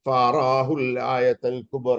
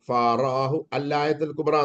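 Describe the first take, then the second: First: The article's vowel drops, linking onto the previous word. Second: The article is said separately with its glottal onset.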